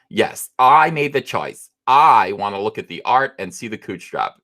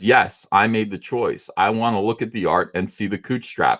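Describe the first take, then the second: First: It is read in a mocking, sarcastic tone. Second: It is read in a plain, straight tone.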